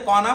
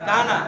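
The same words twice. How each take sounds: First: "কনা" with a rounded o in the first syllable; wrong pronunciation. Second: "কানা" with a long open a; correct pronunciation. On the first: Teacher questioning a misreading of the Arabic word, "কনা" with o. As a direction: say "কনা" as kona, with an o. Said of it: "ফার্সিতে কনা পড়বেন?". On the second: Teacher modelling the Arabic word for students, "কানা" with long a. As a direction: say "কানা" as kaana, not kona. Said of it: "কনা কেন পড়বেন?". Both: Shown as a demonstration.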